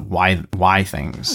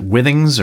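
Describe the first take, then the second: First: The first syllable sounds like 'why'. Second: The first syllable sounds like 'with'. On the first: The speaker calls it right. "Y Things is the correct pronunciation because it was supposed to be Wi-Fi Things" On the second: The speaker calls it wrong. "is it Withings"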